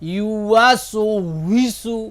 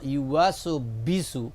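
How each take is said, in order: First: The lips round, giving a 'w' sound. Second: The lips close, giving a 'b' sound. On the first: The speaker calls it right. "ঠোঁটটা গোল হতে হবে" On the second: The speaker calls it wrong. "দুই ঠোঁট লাগলে, দুই ঠোঁটের ভিজা লাগলে এটা বার উচ্চারণ হয়"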